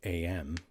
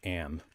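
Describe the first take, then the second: First: It is said as two separate letter names. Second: It is said as one single short word. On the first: "Like like ten o'clock A M" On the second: "but it's pronounced Am"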